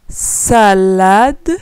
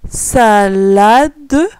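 The two takes are said the same way.

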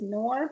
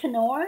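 First: The initial K sound is silent. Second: The initial K sound is pronounced. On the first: The speaker calls it wrong. "I used to think it's just Knorr" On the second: The speaker calls it right. "It's pronounced Knorr. ... apparently they pronounce the K"

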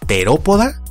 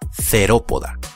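First: The word begins with a crisp, plain t. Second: The word begins with a soft th sound. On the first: The speaker calls it right. "se pronuncia como una T marcada" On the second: The speaker calls it wrong. "y no como una T suave con aspiración"

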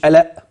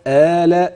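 First: The first vowel is cut short. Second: The first vowel is drawn out long. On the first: The speaker calls it wrong. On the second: The speaker calls it right.

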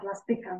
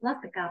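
First: The stress falls on the second-to-last syllable. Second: The stress falls before the second-to-last syllable. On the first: The speaker calls it right. "На передостатній слог ми робимо наголос" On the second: The speaker calls it wrong. "Не пластика"

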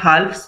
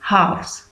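First: An L sound is pronounced before the F. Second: No L sound is pronounced before the F. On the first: The speaker calls it wrong. "इसको हम हाल्फ नहीं बोलेंगे या हाल्फ्स नहीं बोलेंगे" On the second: The speaker calls it right. "एल जो है वो साइलेंट रहता है ... करेक्ट प्रोनाउंसिएशन है दैट विल बी हाफ्स"

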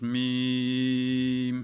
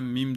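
First: The vowel is drawn out long. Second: The vowel is clipped short. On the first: The speaker calls it right. "Mim uzatıyoruz" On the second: The speaker calls it wrong. "Hemen mim demiyoruz"

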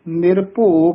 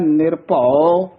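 First: The word ends in a long 'o' vowel. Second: The word ends in a short 'au' glide. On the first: The speaker calls it wrong. "ਭੱਬੇ ਹੂੜਾ ਲਾ ਦਿੰਦੇ ਹਨ" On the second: The speaker calls it right. "ਇਹਦਾ ਉਚਾਰਨ ਹੈ"

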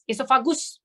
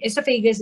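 First: The word is pronounced with Malay sounds. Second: The word is pronounced with English sounds. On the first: "Bahasa Melayu punya pronunciation" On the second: "in English"

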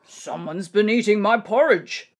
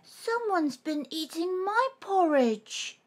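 First: It is growled in Father Bear's voice. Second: It is cried in Baby Bear's voice.

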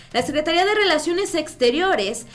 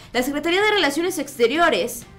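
The two takes are said the same way.

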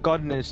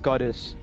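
First: An n sound comes before the final syllable. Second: No n sound comes before the final syllable. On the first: The speaker calls it wrong. "It's not godness" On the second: The speaker calls it right. "it's goddess"

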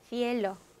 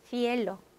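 Both takes have the same delivery.

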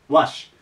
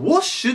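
First: The vowel sounds like a Japanese 'a'. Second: The vowel sounds like a Japanese 'o'. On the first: The speaker calls it right. "ただ発音はワッシュです。" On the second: The speaker calls it wrong. "日本語だとwash って言いたくなるんですけど"

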